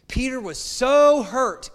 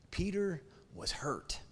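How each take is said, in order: First: "so" stretched high and loud, slow; stress on so. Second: Quiet. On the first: Preacher stressing how hurt Peter was, loud and slow. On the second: Preacher quietly quoting John about Peter's hurt. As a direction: let "Peter was hurt" fall soft and hushed. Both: Acted.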